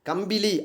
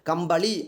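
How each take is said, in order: First: The second vowel is i with a plain l. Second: The second vowel is a with a retroflex l. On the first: This is the everyday spoken form. "பேச்சு வழக்கு சொல்" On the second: This is the pure written form. "தூய தமிழ் சொல்"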